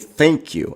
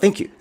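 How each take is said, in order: First: The words are pronounced carefully and clearly. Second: The words are pronounced loosely and unclearly. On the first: The speaker calls it right. "like say thank you" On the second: The speaker calls it wrong. "not not thank you"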